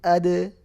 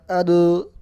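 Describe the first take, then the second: First: The echo after the consonant sounds light and thin. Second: The echo after the consonant sounds heavy and dark. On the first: The speaker calls it right. "pantulannya itu tipis" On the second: The speaker calls it wrong. "Bukan ado"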